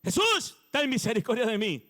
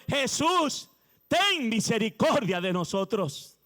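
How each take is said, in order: First: Crying out for mercy. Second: Slow, drawn-out plea for mercy; lepers crying for mercy. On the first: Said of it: "usted está gritando y gritando". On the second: Preacher voicing the lepers begging Jesus, slow pleading cry. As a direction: stretch out the cry like a desperate leper. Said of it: "Ellos dijeron". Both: Retold or imitated.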